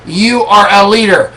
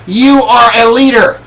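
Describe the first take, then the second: First: "are" punched, then a falling close; stress on ARE. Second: "You" hit first and hardest, the rest falling; stress on YOU. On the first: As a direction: hit the word "are" as a firm affirmation. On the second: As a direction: lean on the word "You". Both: Shown as a demonstration.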